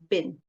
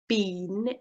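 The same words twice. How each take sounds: First: The word is said quickly in a weak form. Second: The word is said in its full form. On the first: "In connected speech, it becomes" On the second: "instead of been"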